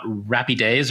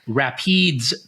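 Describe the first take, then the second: First: The word is said with three syllables. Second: The word is said with fewer than three syllables. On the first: The speaker calls it wrong. "not Rapides or whatever three-syllable thing I came up with" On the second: The speaker calls it right. "it is Rapides Parish"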